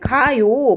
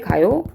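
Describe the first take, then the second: First: The voice is firm and falling like a command. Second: The voice rises at the end like a question. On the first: The speaker is telling someone to go. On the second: The speaker is asking whether someone is going.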